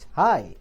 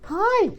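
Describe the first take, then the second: First: The word is said at a medium pitch. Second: The word is said at a high pitch. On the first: "my normal pitch" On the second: "that's called high pitch"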